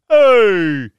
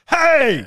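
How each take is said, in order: First: It is a call for someone's attention. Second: It is an angry, mad scream.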